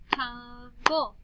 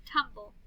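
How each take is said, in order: First: Slow "Tum-ble" for clapping; clapped syllables. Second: Said in the usual way. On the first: Shown as a demonstration. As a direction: TUMBLE slowly as tum-ble. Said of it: "then we'll clap the syllables". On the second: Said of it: "Last one".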